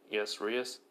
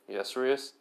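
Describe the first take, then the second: First: "Yes, Rias." as a dutiful statement with a falling end; flat statement. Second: "Yes, Rias?" ending on a rise; "Yes, Rias?" said as a question, rising on "Rias"; questioning tune. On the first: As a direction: settle it down, "Rias." falls. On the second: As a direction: ask it back, voice lifting on "Rias?". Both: Acted.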